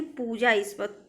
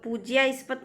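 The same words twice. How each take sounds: First: पूजास्पद as poo-jaa-spad; correct form पूजास्पद. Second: पूज्यास्पद with a y after j; wrong form पूज्यास्पद. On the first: Teacher corrects students, poo-jaa in पूजास्पद. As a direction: say पूजास्पद without a y. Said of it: "पूज्यास्पद नहीं". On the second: Teacher rejects a misspelling, y sound in पूज्यास्पद. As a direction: say पूज्यास्पद as pooj-yaa-spad. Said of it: "नहीं". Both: Shown as a demonstration.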